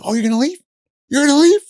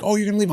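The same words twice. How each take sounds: First: Building to a high, loud shriek; rising hysterical taunt; escalating taunt. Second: Higher sarcastic question; mock girlfriend. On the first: Retold or imitated. Girlfriend about to snap at boyfriend, building to a loud high shriek. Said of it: "she's like". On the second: Girlfriend taunting leaving boyfriend, higher sarcastic question. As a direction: needle him as he leaves. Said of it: "She's like".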